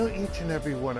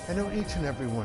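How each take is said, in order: First: It is said in the speaker's ordinary accent. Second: It is said in a put-on British accent.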